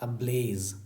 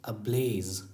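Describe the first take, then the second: No difference in how they are said.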